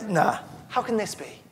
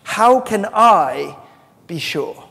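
First: Said in the usual way. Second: "I" drawn out high and loud, slowly; stress on I. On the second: Shown as a demonstration. Preacher showing the congregation where the stress falls on "I". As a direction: lean hard on "I" in "How can I". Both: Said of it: "the emphasis is on the I".

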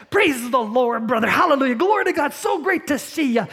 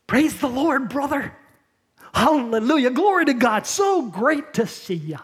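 First: Gushing, much higher and louder fake praise; creepy smiley churchgoer. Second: Syrupy, higher, overly sweet church greeting; creepy smiley churchgoer. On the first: Preacher imitates the plastic churchgoer at the door, over-sweet. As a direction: lay the sweetness on thick, grinning. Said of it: "You hear that". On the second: Retold or imitated. Preacher imitates a fake-smiling churchgoer greeting a brother, syrupy. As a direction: gush fake praise with a plastic smile. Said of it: "it might goes like this".

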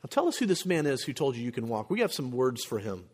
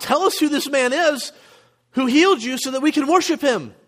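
First: Softer, lower, restrained displeasure; understated threat, voice pulled back and lowered; mock stern interrogation. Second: High, louder mock enthusiasm; high-pitched, eager plea; imagined eager awe. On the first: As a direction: quietly demand the culprit's identity. Acting out the stern Pharisees instead. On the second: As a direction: act out thrilled would-be worshippers.

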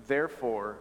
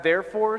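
First: Said in the usual way. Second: "therefore" higher and louder with a rise; stress on "therefore". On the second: Shown as a demonstration. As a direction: spotlight the word "therefore". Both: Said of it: "therefore" statement".

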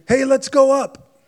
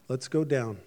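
First: Slow, higher and louder, puffed-up boast; conceited. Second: Softer and lower, unhurried and settled; calm. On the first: People of Babel boasting about their tower, slow and puffed up. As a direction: swagger it, full of yourself. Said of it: "started with this big conceited". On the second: God answering the builders of Babel, calm and soft. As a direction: answer the boast quietly, unbothered. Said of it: "God's answer was a calm". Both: Retold or imitated.

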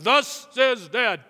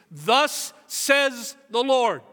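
First: Slow, loud mock-solemn dad voice; dad playing prophet for attention; mock dad proclamation. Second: Slow booming prophet voice; grand biblical pronouncement; solemn proclamation. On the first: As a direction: ham up the booming dad decree. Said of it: "I'd be like". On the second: Retold or imitated. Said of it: "these kinds of phrases".

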